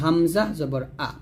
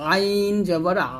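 First: Short আ from the bottom of the throat; light hamza. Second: আইন and আ pressed from mid-throat and held; squeezed ayn. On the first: Teacher setting hamza against ayn, light short আ. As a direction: keep the আ in হামজা জবর আ short and unpressed. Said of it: "এটা হবে হলকের মা". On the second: Teacher setting ayn against hamza, squeezed long আ. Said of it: "চাপ দিয়ে". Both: Shown as a demonstration.

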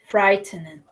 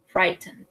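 First: Said in the usual way. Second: Scared whisper. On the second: Shown as a demonstration. Teacher acting out fear for the class, whispered. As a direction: whisper it as if afraid.

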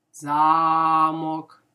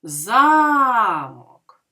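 First: Замок with the О of мок loud and lengthened; замОк, stressed on the second syllable; stress on last syllable. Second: Замок with the first vowel А loud and long; ЗАмок, stressed on the first syllable, said loud. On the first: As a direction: lean on the О in Замок, first syllable light. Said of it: "Слово замок ми чуємо голосно звук О". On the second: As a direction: hit the А in Замок, let мок fall away. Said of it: "в слові замок ми чуємо голосно звук А". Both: Shown as a demonstration.

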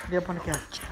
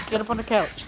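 First: Said in the usual way. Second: Higher, firmer urging; insistent dog command. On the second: Real, not acted. Owner coaxing dog onto the couch, insistent. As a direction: urge the dog up more insistently.

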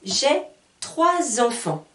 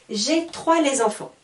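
First: Slow trois enfants with a z liaison, troiz-enfants; slow model, troiz-enfants; correct liaison. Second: Trois les enfants with an intrusive les; wrong version. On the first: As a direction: link trois to enfants with a z sound, slowly. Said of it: "avec derrière tout de suite le mot enfant". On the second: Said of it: "Ce n'est pas possible". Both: Shown as a demonstration.

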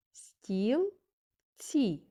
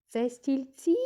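First: "Стілці" split in two with a long pause; syllable by syllable. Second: "Це стільці?" rising high and loud to the last syllable; questioning tone. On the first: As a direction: say "Стілці" as stil... tsi, each syllable separate. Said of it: "визначимо кількість складів". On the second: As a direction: ask "Це стільці?" with TSI pushed up. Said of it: "А тепер запитаємо". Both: Shown as a demonstration.

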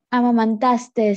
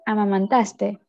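First: "amamantaste" with an extra final S; amamantaste with added S. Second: Said in the usual way. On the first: Shown as a demonstration. Student showing the class the error, "amamantaste" with final S added. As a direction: end "amamantaste" on a hiss, as amamantastes. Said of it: "no se dice". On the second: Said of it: "se dice".

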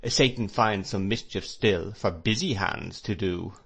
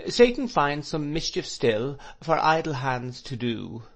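First: Verse requoted at usual pitch with stress on "busy"; dry counter-quote, BUSY hands picked out; quotation turned round. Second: Higher, measured recital of a verse, IDLE hands; verse quoted to a beat in a raised voice; quoting in time. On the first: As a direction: hit BUSY as the swapped word. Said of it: "with as much truth". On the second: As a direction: recite it rhythmically, pitched up, ending on "idle hands to do". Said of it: "moving his head to the time of his quotation". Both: A narrator's reading.

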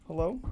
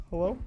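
The two takes are said the same way.

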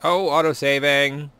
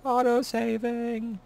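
First: Surprised. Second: Much higher, slow and drawn out; high sing-song. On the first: Real, not acted. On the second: Pretend.

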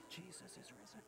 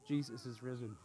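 First: Barely audible whisper. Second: Low, hushed but audible voice; slightly raised whisper. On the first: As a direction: whisper it like a secret to pass along. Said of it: "I'm gonna whisper the good news". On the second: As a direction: keep it soft, just loud enough to hear. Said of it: "I said it a little louder". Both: Shown as a demonstration.

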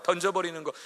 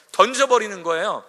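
First: 던져버리는 with a falling, firmer repeat; stress on 던져버리는. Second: 던져버리는 said high and loud; emphasis on throwing. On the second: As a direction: punch 던져버리는 upward. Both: Shown as a demonstration.

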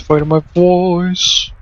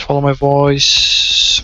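First: Slow, drawn-out call to follow. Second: Said in the usual way. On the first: Real, not acted. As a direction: stretch each word out, guiding them in.

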